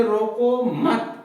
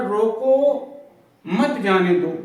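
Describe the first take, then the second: First: रोको मत run together as one slow, drawn-out phrase; no break between रोको and मत; pause moved after मत. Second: रोको held alone, clear break, then मत जाने दो together; pause after रोको. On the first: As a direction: join रोको to मत, stretching both words. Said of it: "इसी अल्प विराम के माध्यम से". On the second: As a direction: stop after रोको before saying मत जाने दो. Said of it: "रोको के बाद हमने अल्प विराम लगा दिया". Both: Shown as a demonstration.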